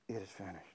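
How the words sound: It is said weakly, like a defeated victim.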